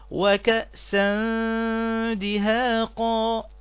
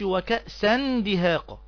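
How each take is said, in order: First: The n sound is hidden and nasalized before d. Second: The n sound is pronounced clearly before d. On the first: The speaker calls it right. "كيف تقرأ الآية إذا طبقنا هذا الحكم عليها؟" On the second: The speaker calls it wrong. "يبقى انت كده إظهار"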